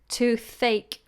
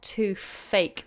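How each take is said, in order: First: The middle sound is a TH sound. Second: The middle sound is an F sound. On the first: The speaker calls it right. "The toothache, toothache" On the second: The speaker calls it wrong. "not too fake with an F"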